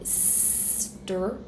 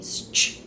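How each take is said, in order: First: A plain t sound follows the s. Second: A ch sound follows the s. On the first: "instead of saying stir" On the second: "I'm gonna say ch"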